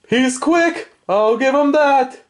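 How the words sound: Alf's voice is high in pitch.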